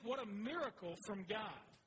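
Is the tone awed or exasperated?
awed. It is said with sincere wonder.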